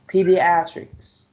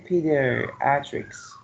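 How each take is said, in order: First: Pediatrics slow and louder, stressing "at": pe-di-AT-rics; careful stress demo. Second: Said in the usual way. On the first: Shown as a demonstration. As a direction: say Pediatrics slowly and loudly, punching "at". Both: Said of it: "The second syllable receives the stress".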